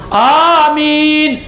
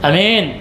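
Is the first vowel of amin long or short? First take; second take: long; short. First: The first vowel is long. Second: The first vowel is short. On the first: It means a plea for God to grant it. "Panjang alifna" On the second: It means belief or trust. "Amin, kepercayaan"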